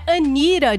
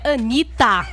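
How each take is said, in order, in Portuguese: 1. A consoante do meio é um R suave. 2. A consoante do meio é um T claro. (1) "não é [name]" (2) "é Anitta"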